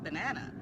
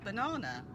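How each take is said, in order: First: It is said in an American accent. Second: It is said in a British accent. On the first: "instead of banana" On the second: "the way I say banana"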